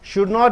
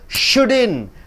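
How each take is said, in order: First: Not is said as a full separate word. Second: Not is shortened and joined to should. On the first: "Should not is shouldn't" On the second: "Should not is shouldn't"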